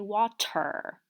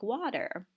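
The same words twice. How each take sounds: First: The T is a full, clear T sound. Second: The T is a quick flapped sound. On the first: The speaker calls it wrong. "You would not say water" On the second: The speaker calls it right. "You would say something like water. Um, and that's considered to be a flap"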